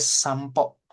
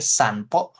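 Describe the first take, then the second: First: The sound before the p is an m. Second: The sound before the p is an n. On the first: "untuk melafalkannya dia sampo" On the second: "ditulisnya sih pakai N"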